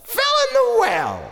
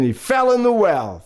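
First: Very high, comic echo; high exclamation. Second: Said in the usual way. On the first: Acted. Storyteller repeats the father's fall for children, high exclamation. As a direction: squeal it out in astonishment.

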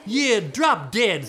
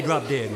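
First: Slow, loud, heavy insolence; rude retort. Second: Said in the usual way. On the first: Acted. Cursed sister backing up her sister, slow loud rudeness. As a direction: stretch and punch each word.

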